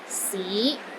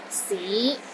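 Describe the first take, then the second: First: The pitch rises from low to middle. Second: The same.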